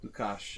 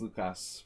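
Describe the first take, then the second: First: The name ends with an sh sound. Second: The name ends with an s sound. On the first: This is the Hungarian way of saying it. "in Hungarian ... everything's a sh sound" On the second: This is how most places say it. "it's Lukas probably in most places"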